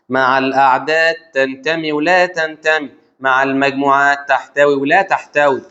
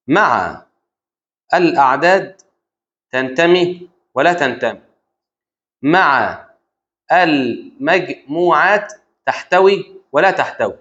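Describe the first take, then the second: First: مع الأعداد تنتمي ولا تنتمي run together on an even tune, drawn out; rote recitation. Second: Word by word with long pauses; slow dictation. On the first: Teacher repeating the rule, مع الأعداد تنتمي ولا تنتمي as even rote recitation. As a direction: recite مع المجموعات تحتوي ولا تحتوي as one steady, connected phrase. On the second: Teacher dictating a rule to the student, slow dictation. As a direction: dictate it slowly, piece by piece. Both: Shown as a demonstration.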